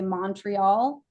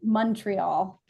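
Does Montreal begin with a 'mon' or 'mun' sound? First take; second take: mon; mun. First: The first syllable is a full 'mon'. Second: The first syllable sounds like 'mun'. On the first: The speaker is not local. The speaker calls it wrong. "If you say Montreal, you're not local" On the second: The speaker is local. The speaker calls it right. "M U N"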